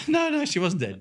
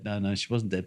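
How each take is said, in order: First: High, laughing denial; laughing correction. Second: Said in the usual way. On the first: Real, not acted. Correcting the joke about the mother, laughing. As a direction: laugh it off as you set him straight.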